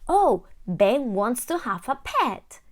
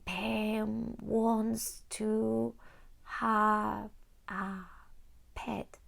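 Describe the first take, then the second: First: It is read smoothly as one whole phrase. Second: It is read slowly, one word at a time.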